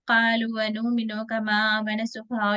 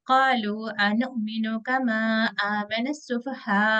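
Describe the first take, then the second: First: The pitch stays in one even rhythm throughout. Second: The pitch rises and falls across the phrase. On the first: The speaker calls it wrong. "पूरा एक ही रिदम में हम चले जाएंगे" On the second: The speaker calls it right. "लहजा का जो उतार चढ़ाव है ... तब थोड़ा वो चेंज आएगा"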